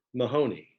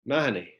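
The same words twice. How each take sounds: First: "Mahoney" said the American way, muh-HOH-nee; American pronunciation. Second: "Mahoney" said the Irish way, stress on the first syllable; Irish pronunciation. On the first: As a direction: stress the middle syllable of "Mahoney", long OH. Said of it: "as they say in the United States". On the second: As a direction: say "Mahoney" squeezed to MAH-nee, front-stressed. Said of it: "or as they say in the United States". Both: Shown as a demonstration.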